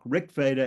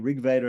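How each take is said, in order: First: The first word ends in a hard k sound. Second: The first word ends in a soft g sound. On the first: The speaker calls it wrong. "and not Rik Veda" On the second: The speaker calls it right. "the K ter- gets softened into a G before the V"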